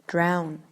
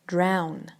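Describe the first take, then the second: First: The vowel sounds like the vowel in 'now'. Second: The vowel sounds like the vowel in 'now'.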